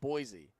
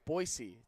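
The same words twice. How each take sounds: First: Boise is said the way East Coasters say it. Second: Boise is said the way locals say it. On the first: The speaker calls it wrong. "It's not Boise. Got my my little East Coast Jersey accent" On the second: The speaker calls it right. "I have been taught by them that it's Boise"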